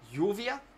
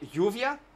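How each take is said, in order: First: The first sound is a soft y-like sound. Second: The same.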